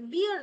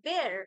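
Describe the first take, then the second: First: The vowel sounds like the word beer. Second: The vowel sounds like the word bare. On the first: The speaker calls it wrong. "বিয়ার নয়" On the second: The speaker calls it right. "মানে আমি বলছি যে এটা একটু অ্যাকসেন্টের problem"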